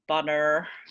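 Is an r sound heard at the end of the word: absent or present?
present. The final vowel has an r sound. "instead of butter"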